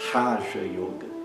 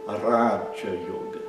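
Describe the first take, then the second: First: The first r is a guttural sound. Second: The first r is a quick tap. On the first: The speaker calls it wrong. "e não é Raja Yoga" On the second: The speaker calls it right. "é Raja Yoga"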